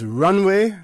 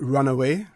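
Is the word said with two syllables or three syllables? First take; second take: two syllables; three syllables. First: The word is said with two syllables. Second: The word is said with three syllables. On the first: "it is runway" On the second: "that's the old Cayman jargon"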